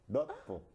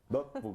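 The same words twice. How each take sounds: First: The first syllable is said clipped and short. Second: The same.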